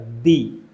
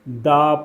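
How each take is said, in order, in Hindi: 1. शब्द का अंत लंबे ee स्वर से होता है। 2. शब्द का अंत छोटे uh स्वर से होता है। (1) "दी बन जाएगा" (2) "दी नहीं पढ़ेंगे, दा पढ़ेंगे"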